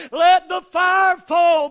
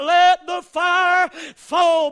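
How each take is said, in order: First: Slow, louder yell, more urgent; yelled again. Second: Slow, louder yell, drawn out. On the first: Old man yelling a second time, slow and louder. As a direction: yell it once more, still waiting. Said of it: "he yelled". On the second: Old man yelling at the mountain, slow loud yell. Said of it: "That old man jumped up and yelled". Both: Retold or imitated.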